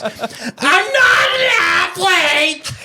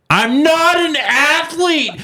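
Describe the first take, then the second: First: Very high, very slow, wailing mock sob; mock crying wife. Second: High, slow, whiny mock of his wife. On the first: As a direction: bawl it out like a hammed-up crybaby. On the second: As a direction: whine it back at him the way she did. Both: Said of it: "That's what she says to me".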